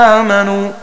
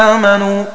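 Both takes have the same delivery.

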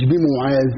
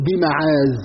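First: The first vowel of the word is 'u'. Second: The first vowel of the word is 'a'. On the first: It names a different thing. The speaker calls it wrong. "مش بمعاذ" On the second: It names the one people seek refuge with. The speaker calls it right. "عوذتي بمعاذ مش بمعاذ"

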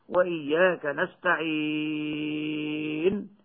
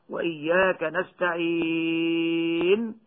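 Both takes have the same delivery.

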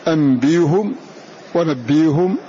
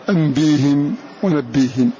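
First: The h is followed by a u vowel. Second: The h is followed by an i vowel. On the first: "يبقى الهاء على ضمها أولا" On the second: "ثم كسرها"

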